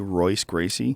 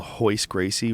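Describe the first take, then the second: First: The first name begins with an R sound. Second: The first name begins with an H sound. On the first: The speaker calls it wrong. "unaware that you have to pronounce the R like an H" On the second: The speaker calls it right. "you have to pronounce the R like an H"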